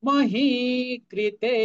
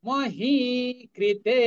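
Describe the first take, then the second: The two takes are said the same way.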